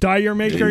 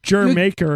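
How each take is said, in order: First: The first word sounds like 'dyer'. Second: The first word sounds like 'jer'. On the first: The speaker calls it wrong. "It's not that" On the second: The speaker calls it right. "It's pronounced Jer Maker, apparently"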